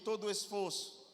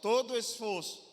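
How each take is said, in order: First: It is said at normal, softer volume. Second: It is said louder and more forcefully.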